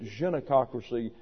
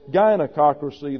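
First: The first G is a soft zh-like sound. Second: The first G is a hard G sound. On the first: It sounds refined. The speaker calls it right. "that's posh" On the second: It sounds common. The speaker calls it wrong. "that's sort of gauche"

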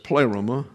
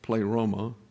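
First: The stress is on the first syllable. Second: The stress is on the middle syllable. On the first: The speaker calls it right. "the accent's on the first syllable" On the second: The speaker calls it wrong. "we have the tendency to want to accent the middle syllable"

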